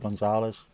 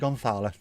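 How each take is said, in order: First: The name is said with a South American accent. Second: The name is said with a Spain Spanish accent. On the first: This is how South Americans say it. The speaker calls it right. "Just say Gonzalez. ... South America don't speak Spanish with Spanishy" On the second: This is how people in Spain say it. The speaker calls it wrong. "Don't say Gonzalez, do they? ... I learned Spanish from Spanishy people"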